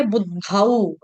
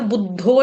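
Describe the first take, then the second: First: बुद्धाऊ ending in a full au glide; double au. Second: बुद्धो with a plain o ending; wrong vowel. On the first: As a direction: open बुद्धाऊ from a into u at the end. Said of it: "double औ". (बुद्धाऊ, अंत में दोहरी मात्रा का औ) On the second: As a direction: end बुद्धो on a single o sound. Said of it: "बुद्धो नहीं बोलेंगे". (बुद्धो, अंत में सादा ओ) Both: Shown as a demonstration.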